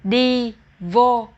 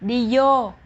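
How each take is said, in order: First: Vô begins with a v sound. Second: Vô begins with a y sound. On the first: "we have a word đi vô" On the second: "a lot of people in the South will pronounce V as Y"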